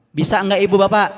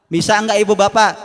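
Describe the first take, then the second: No difference in how they are said.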